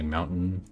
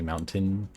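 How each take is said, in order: First: The T is replaced by a glottal stop. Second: The T is fully pronounced. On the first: "like I just say mountain" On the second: "I don't pronounce the T in that. I don't say mountain"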